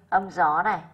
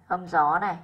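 The two takes are said the same way.

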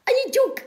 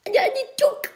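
First: Said in the usual way. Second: Breathy whisper of mock disbelief; hushed. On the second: Whispering mock shock at the news report. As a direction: whisper it as if scandalised.

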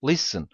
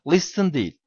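First: "Listen" said as lisin, no T; silent t. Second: "Listen" said with the T sounded, marked as wrong; wrong pronunciation. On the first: Teacher to students, models "Listen" with a silent T. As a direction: drop the T in "Listen". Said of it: "Orada T harfi var fakat telaffuz olarak yok". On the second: Teacher to students, says "Listen" with a T as the mistake. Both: Shown as a demonstration.

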